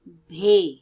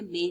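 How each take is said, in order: First: The first consonant is aspirated, with a puff of breath. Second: The first consonant is plain, without a puff of breath. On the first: The speaker calls it right. "भारी आवाज वाले अल्फाज" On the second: The speaker calls it wrong. "इसको आपने बे नहीं पढ़ना"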